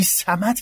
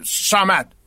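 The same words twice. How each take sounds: First: صمد said slowly with a plain s sound, the wrong way; wrong pronunciation. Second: Said in the usual way. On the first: Shown as a demonstration. [name] showing Amir the wrong way to say صمد, slow. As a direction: drag out صمد with a soft s like سین. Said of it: "اگه بگی صمد که غلطه". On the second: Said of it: "اینو در نظر بگیر".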